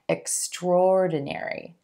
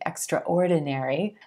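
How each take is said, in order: First: The 'a' is dropped, going straight into 'or'. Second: The 'a' after 'extr' is pronounced separately. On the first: The speaker calls it right. "we just pull that A right out of there and emphasize the or sound" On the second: The speaker calls it wrong. "I know it looks like it should be extraordinary"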